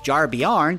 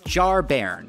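First: The second part sounds like 'byarn'. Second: The second part sounds like 'bairn'. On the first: The speaker calls it wrong. "who I've been pronouncing as Jarbjarn because I'm an idiot" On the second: The speaker calls it right. "This is Jarbairn"

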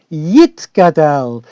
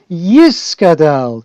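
First: The word is said with a t sound. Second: The word is said with an s sound. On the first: It follows the new pronunciation shared with Israel. "wollen wir sich vereinigen mit unser Volk in Eretz Yisroel"

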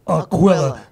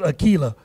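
First: The name does not rhyme with tequila. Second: The name sounds like it rhymes with tequila. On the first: The speaker calls it right. "No, it's Aquila. Not like tequila" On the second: The speaker calls it wrong. "I used to pronounce it Aquila"

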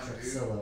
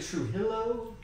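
First: The X in the middle is clearly sounded. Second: The X in the middle is nearly silent. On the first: This is how the name's owner says it. "That's how he pronounces it" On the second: This may be the actual pronunciation of the name. "Seems like the X would be a little silent"

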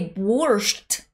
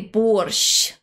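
First: The final sh sound is hard. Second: The final sh sound is soft. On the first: The speaker calls it wrong. "you are saying it wrong" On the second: The speaker calls it right. "You should say борщ"

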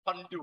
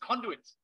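First: The final syllable's ending sounds are dropped. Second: The word is said with its full ending. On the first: The speaker calls it wrong. "Thai people pronounce it condu. ... It's horrible" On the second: The speaker calls it right. "It's conduits"

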